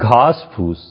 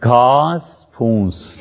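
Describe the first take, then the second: First: The second word has no nasal sound. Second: The second word has a nasal sound. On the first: The speaker calls it right. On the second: The speaker calls it wrong.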